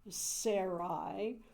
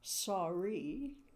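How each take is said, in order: First: The name does not sound like 'sorry'. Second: The name sounds just like 'sorry'. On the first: The speaker calls it wrong. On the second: The speaker calls it right.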